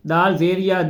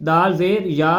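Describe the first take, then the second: No difference in how they are said.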